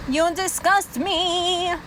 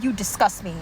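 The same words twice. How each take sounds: First: Slow, stretched-out contempt; drawn-out disgust. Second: Disgust. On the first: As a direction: draw every word out in disgust. Repeats it slowly, drawn out. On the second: First take, low and matter-of-fact. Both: Real, not acted.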